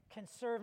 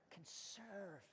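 First: Said in the usual way. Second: Very soft, almost whispered prompt; quiet, weighty reveal; hushed answer. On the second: Real, not acted. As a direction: drop right down to a murmur.

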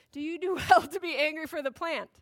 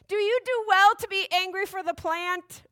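First: Lightly voiced divine questioner; milder, measured questioning of a sulker; God. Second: High, petulant character voice; Jonah's voice. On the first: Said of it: "God said to Jonah". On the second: Acted. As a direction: read it as an indignant sulker. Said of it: "wrong voice".

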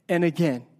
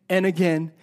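No difference in how they are said.

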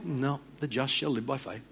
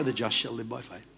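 First: God closing the matter softly; soft, final divine answer; calm God's answer. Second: Low, quiet steady reply; God repeating patiently, quieter; soft firm divine answer; calm God's answer. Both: Retold or imitated. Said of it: "he speaks very clearly".

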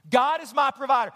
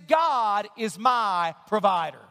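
First: Said in the usual way. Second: Slow, deliberate declaration. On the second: Shown as a demonstration. Pastor modelling the declaration for the church, slowly. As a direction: lay out each word. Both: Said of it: "Here's the first declaration that we can make".

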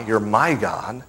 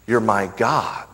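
First: My lifted and held in You're my God; stress on my. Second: Said in the usual way. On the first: Shown as a demonstration. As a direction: lean on my, softly. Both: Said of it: "emphasize one time the word my".

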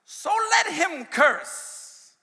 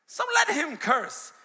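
First: Higher, louder, very slow proclaimed shout. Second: Less loud, slow, LET stressed; slow emphatic repeat. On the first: King's words shouted slowly to the church. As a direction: bellow each word out. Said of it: "And the king said". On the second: Preacher repeating the king's words slowly for emphasis. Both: Acted.

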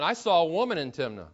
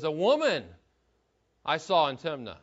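First: Said in the usual way. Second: "woman" pushed up front and hit firmly, then a pause; stress on woman. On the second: Shown as a demonstration. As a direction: lean hard on "woman" before the rest. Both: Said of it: "The emphasis is on the word woman".

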